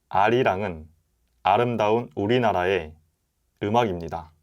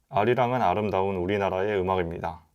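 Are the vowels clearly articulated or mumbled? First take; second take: clear; mumbled. First: The vowels are crisp with a wide-open mouth. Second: The vowels are slurred with little mouth opening. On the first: The speaker calls it right. "진짜 또박또박 신경을 써서 말하면" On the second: The speaker calls it wrong. "모음을 신경 쓰지 않고 읽으면"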